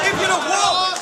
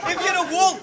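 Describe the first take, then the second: First: "if" hit higher, rest of "if you're a wool" trailing off; stress on if. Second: "wool" punched with a falling finish, "if" lighter; stress on wool. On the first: Rapper starting a bar at his rival, stress on if. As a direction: lean on "if" to open the line. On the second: Rapper restarting the bar to the crowd, stress on wool. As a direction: land the line on "wool". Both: Acted. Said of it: "restart of the same line".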